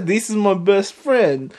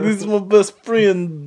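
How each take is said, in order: First: Put-on a light, accidental Russian accent on Johnny's line. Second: Said in the usual way. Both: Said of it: "I don't know why I turned Russian".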